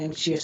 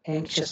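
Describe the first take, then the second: First: The ending is two syllables, 'shee-us'. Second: The ending is one syllable, 'shus'. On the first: The speaker calls it wrong. "एंक्शियस नहीं होता" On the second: The speaker calls it right. "एंक्शस बोलते हैं"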